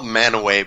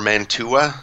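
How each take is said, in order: First: The name is said without a t sound. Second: The name is said with a t sound. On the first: The speaker is a local. The speaker calls it right. "nah, it's called Manaway" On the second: The speaker is not from the area. The speaker calls it wrong. "if anybody's not from here, they're like, I'm looking for Mantua"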